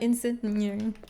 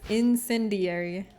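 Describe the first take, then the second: First: The word's ending is hurried and slurred. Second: The word's ending is said fully and clearly. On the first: "I kind of just like rush through the end" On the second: "everyone reaffirmed it"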